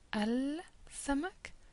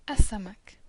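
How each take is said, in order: First: The L is pronounced before the s sound. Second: The L is dropped and the s doubled. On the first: The speaker calls it wrong. "you need to have a little pause between al and then change the position of your tongue" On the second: The speaker calls it right. "the L disappears. So what you say is as-samak"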